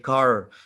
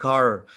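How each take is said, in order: First: It is said with an American accent. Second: The same.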